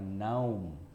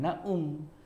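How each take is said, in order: First: The 'au' is one gliding vowel. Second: The 'a' and 'u' are separate syllables. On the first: The speaker calls it right. "sukun tadi juga bermakna diftong" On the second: The speaker calls it wrong. "bukan naum"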